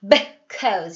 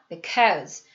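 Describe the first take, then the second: First: The first syllable is fully voiced. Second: The first syllable is barely voiced, mostly mouthed. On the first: The speaker calls it wrong. "because 이러지 않는다는 얘기예요" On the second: The speaker calls it right. "입모양만 합니다"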